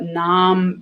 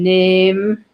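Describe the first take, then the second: First: The vowel is a low open ah sound. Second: The vowel is a raised ay sound. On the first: This is the older pronunciation. "ah is a low vowel, like in the word nam" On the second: This is the modern pronunciation. "nam became name. That raised a little bit"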